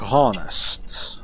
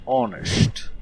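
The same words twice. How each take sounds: First: "honest" with the h sounded; mispronounced "honest". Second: "honest" with a silent h; corrected "honest". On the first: Player's slip while reading a clue, "honest" with a sounded h. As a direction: say "honest" starting on an audible h. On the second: Player fixing own slip on a clue, "honest" with silent h. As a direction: drop the h in "honest", starting on the vowel. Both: Shown as a demonstration. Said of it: "Not honest, honest".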